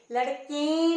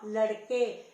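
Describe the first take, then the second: First: लड़के with a stretched, louder nasal "en" ending; wrong nasal ending. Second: Said in the usual way. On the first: Shown as a demonstration. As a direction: wrongly say लड़के as lad-keen, drawn out through the nose. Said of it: "ए की आवाज नहीं आ रही है". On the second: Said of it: "बोलने में ही पता चलता है".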